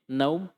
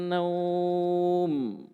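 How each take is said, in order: First: The vowel is cut short before the final m. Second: The vowel is stretched long before the final m. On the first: The speaker calls it wrong. "langsung tutup mulut, mim, naum, salah" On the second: The speaker calls it right. "kasih panjang saja"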